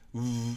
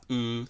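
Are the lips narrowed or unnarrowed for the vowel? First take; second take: narrowed; unnarrowed. First: The lips are narrowed during the vowel. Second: The lips are not narrowed during the vowel. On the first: "狭めをするか" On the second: "狭めを作らない"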